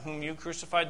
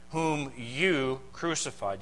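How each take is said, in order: First: Said in the usual way. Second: "you" leaned on, slow and deliberate; slow, weighty "whom YOU crucified"; stress on you. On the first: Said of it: "You see that?". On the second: Shown as a demonstration. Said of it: "the "you" is emphatic in the Greek".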